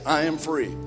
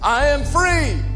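First: It is said quietly, with little passion. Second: It is yelled loudly, with great passion.

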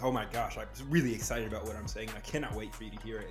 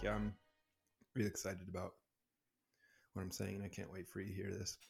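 First: It is said with lively, high energy. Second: It is said flatly, with low energy.

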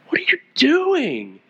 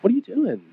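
First: It sounds frustrated, like a scolding parent. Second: It sounds gentle, like an invitation to talk.

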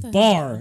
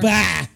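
First: The r sound at the end is pronounced. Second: The r sound at the end is dropped. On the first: The speaker calls it right. "It's bar" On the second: The speaker calls it wrong. "not bah"

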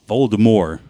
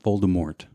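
First: The name ends without a T sound. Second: The name ends with an audible T sound. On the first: The speaker calls it right. "there's a T in his name. You're not supposed to say it" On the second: The speaker calls it wrong. "It's not"

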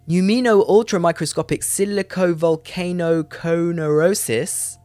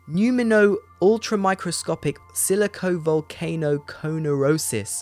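First: The word flows as one smooth unit. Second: The word is broken into separate chunks. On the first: The speaker calls it right. "better that time" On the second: The speaker calls it wrong. "It sounded like a few words the way I said it"

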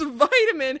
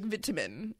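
First: The word is said with an American pronunciation. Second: The word is said with a British pronunciation. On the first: "It's vitamin" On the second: "British, I feel like it would be like vitamin"

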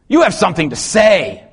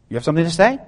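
First: It is said as a bold exclamation. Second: It is said as a rising question.

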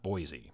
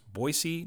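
First: The middle consonant is a buzzing z sound. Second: The middle consonant is a hissing s sound. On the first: The speaker calls it wrong. "not a Z" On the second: The speaker calls it right. "it's with an S"

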